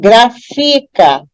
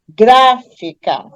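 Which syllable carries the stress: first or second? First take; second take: second; first. First: The stress is on the second syllable. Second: The stress is on the first syllable. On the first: The speaker calls it wrong. "Se eu der ênfase na penúltima sílaba, que é fi" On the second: The speaker calls it right. "se eu der ênfase na antepenúltima, que é gra, eu vou ter a pronúncia correta"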